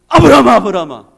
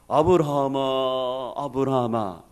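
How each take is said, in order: First: The call is quick and urgent. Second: The call is slow, solemn and grand. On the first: The speaker calls it right. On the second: The speaker calls it wrong.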